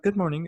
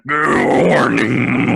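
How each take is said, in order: First: It is said in a normal, clear voice. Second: It is said in a deep, rough voice.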